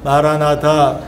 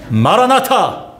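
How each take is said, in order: First: It is said in a flat, dull voice. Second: It is said in a lively, energetic voice. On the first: The speaker calls it wrong. "그것도 다 주관 목소리로 마라나타. 그건 다 말아 먹습니다" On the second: The speaker calls it right. "그러니까 좀 마라나타"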